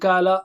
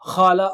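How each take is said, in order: First: The first consonant is a light sound further forward. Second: The first consonant is a rasping sound far back. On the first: "don't say it ... kala" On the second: "don't say it khala"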